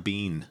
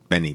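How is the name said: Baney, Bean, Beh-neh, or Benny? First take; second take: Bean; Benny. First: The name is said like Bean. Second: The name is said like Benny. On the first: This is a common mistaken form. "As long as you don't say Al Del Bean" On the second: This is the speaker's own everyday form. "that's how I say it"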